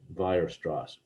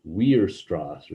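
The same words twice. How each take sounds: First: The name begins with a V sound. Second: The name begins with a W sound. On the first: The speaker calls it right. "the W is actually pronounced like a V" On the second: The speaker calls it wrong. "Some people might pronounce this like a W"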